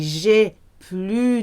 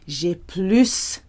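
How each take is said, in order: First: The S at the end is silent. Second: The S at the end is sounded. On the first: It could mean having no more time. The speaker calls it wrong. "if you say j'ai plus de temps, it might be confused with I don't have any more time" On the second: It means having more. The speaker calls it right. "it's normal to pronounce the S. J'ai plus for the more"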